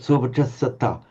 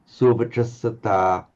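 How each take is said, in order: First: The final vowel is open but quite short. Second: The final vowel is held distinctly long.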